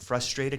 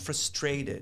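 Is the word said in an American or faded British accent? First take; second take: American; faded British. First: It is said in a plain American accent. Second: It is said in a faded British accent. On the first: "Instead of saying" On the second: "he goes"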